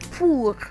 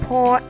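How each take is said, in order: First: The vowel is a pure French 'oo' sound. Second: The vowel is an English-style 'or' sound. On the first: "in French you would say pour" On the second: "you would have said pour in English"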